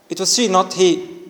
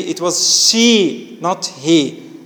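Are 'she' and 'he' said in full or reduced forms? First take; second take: reduced; full. First: She and he are said in reduced, weak forms. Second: She and he are said in full, strong forms. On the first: The speaker calls it wrong. "like this. It sounds weird in English" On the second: The speaker calls it right. "it should be it was she, not he, in their strong forms"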